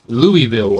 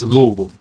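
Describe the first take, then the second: First: It is said the northern US way. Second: It is said the southern US way. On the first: "people up north will say Louisville or Louisville" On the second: "us in the south it's Louisville"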